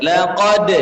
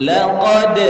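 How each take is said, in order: No difference in how they are said.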